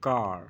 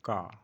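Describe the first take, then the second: First: The final r is sounded with the tongue curled back. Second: The final r is dropped, giving a short 'ka'. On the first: "আমরা জিভটাকে পেছন দিকে রোল করাবো" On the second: "যখন আমরা shortly বলবো তখন কা বলবো"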